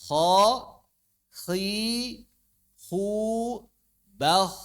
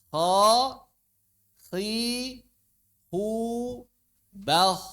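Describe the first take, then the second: Both takes have the same delivery.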